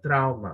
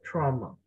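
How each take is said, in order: First: The word has a Spanish-style pronunciation. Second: The word has an English pronunciation. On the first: The speaker calls it wrong. "no sería trauma" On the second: The speaker calls it right. "cuando es en inglés sería trauma"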